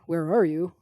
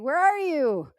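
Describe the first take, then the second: First: It sounds cold and distant, not friendly. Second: It sounds warm, like calling a friend.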